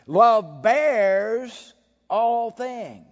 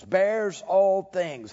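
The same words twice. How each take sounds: First: Love drawn out slow, loud on "Love"; stressed recital. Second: "all" slow and weighted in "bears all things"; stress on all. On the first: Preacher reciting the verse, stressing "Love" slowly. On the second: Preacher repeating the verse with weight on "all". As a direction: press on "all". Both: Shown as a demonstration.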